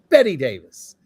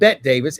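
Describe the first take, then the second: First: The first name has two syllables, like 'betty'. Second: The first name has one syllable, like 'bet'. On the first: The speaker calls it right. "it's Betty Davis" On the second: The speaker calls it wrong. "it's not Bette Davis"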